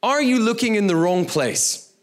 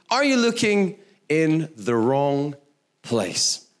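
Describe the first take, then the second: First: Said in the usual way. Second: Slowed down, each word weighed; preacher repeats the title slowly for notes; slow emphatic repeat. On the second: Shown as a demonstration. Slow, deliberate title repeat. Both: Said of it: "the title of my message today".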